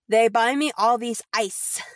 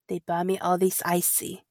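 First: The last word is said with one syllable. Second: The last word is said with two syllables. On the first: This is how the line is written. "it reads ice" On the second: This is how the line is actually pronounced. "But they pronounce it icy"

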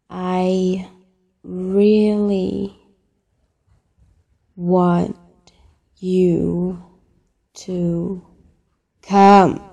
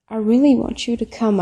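First: It is said slowly. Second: It is said at normal speed.

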